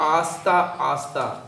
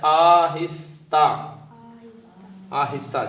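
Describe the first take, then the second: First: The middle hi syllable is dropped. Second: The middle hi syllable is clearly pronounced. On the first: The speaker calls it wrong. "वो कह रही थी आस्ता आस्ता, तो ये नहीं करना" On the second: The speaker calls it right. "जो किताब पे लिखा है वो पढ़ना है"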